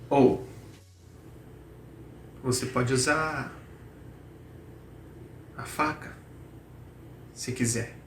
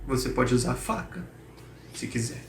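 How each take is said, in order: First: It is spoken with more hesitation. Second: It is spoken with the least hesitation.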